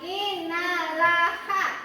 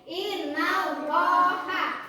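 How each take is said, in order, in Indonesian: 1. Bunyi L tipis dan ringan. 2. Bunyi L tebal dan berat. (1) "bacanya bukan innalaha, bukan" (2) "tapi innallaha, harus dibaca tebal"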